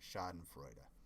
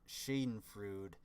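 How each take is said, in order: First: The final E is pronounced as uh. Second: The final E is silent. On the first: The speaker calls it right. "at the end of the word you have an E, so it'd be an E which would be an uh sound" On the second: The speaker calls it wrong. "it makes it sound kind of dumb"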